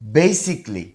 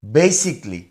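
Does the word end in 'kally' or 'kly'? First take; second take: kly; kly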